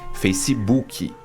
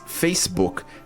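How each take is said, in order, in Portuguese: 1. A palavra termina com a vogal i acrescentada. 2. A palavra termina no som de k. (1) "a gente preenche isso com um i" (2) "a palavra em inglês Facebook tem essa consoante final k"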